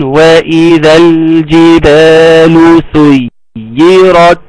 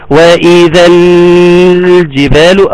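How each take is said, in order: First: "وإذا الجبال سيرت" slow, lam clear but not overheld; wanted recitation. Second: "وإذا الجبال" with the l held far too long; exaggerated lam. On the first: Teacher modelling what is wanted, measured recitation. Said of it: "فإحنا عاوزين". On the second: Teacher showing students what is overdone, exaggerated lam. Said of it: "ممكن أبالغ شوية في النطق". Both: Shown as a demonstration.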